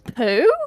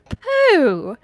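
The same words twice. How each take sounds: First: The voice rises like a question. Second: The voice falls, not like a question.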